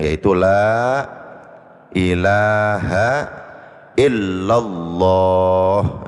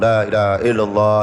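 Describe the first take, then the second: First: Every long vowel is drawn out slowly. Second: It is rushed, only the last word lengthened. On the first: The speaker calls it right. "panjangkan yang memang panjang" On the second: The speaker calls it wrong. "kalau ngejar jumlah ngebut itu yang panjang cuman Allahnya doang"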